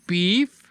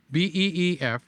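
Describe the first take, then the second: First: Said in the usual way. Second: "B E E F" spelled letter by letter. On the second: Shown as a demonstration. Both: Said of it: "in case I'm stuttering".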